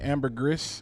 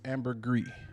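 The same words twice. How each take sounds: First: The final s sound is pronounced. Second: The final s sound is left silent. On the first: The speaker calls it wrong. "I know people say ambergris" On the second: The speaker calls it right. "but it's ambergris. You don't pronounce the is"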